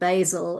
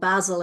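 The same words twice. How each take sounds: First: It is said with an American pronunciation. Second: It is said with a British pronunciation. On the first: The speaker calls it wrong. "instead of" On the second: The speaker calls it right. "or basil"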